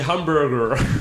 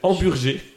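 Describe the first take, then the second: First: The word is said with an English pronunciation. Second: The word is said with a French pronunciation. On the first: "Et en anglais, c'est hamburger" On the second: "En français, c'est hamburger"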